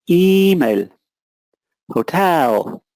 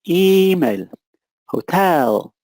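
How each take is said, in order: No difference in how they are said.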